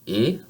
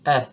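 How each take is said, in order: First: "e" as a tense, steady ay; closed French vowel. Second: "eh" open, as in bet; open vowel. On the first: Teacher contrasting two French vowels, closed "e". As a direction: keep "e" narrower, without a glide. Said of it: "more open than in this sound". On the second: Teacher contrasting two French vowels, open "eh". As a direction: drop the jaw more for "eh". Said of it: "You see that my mouth is more open". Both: Shown as a demonstration.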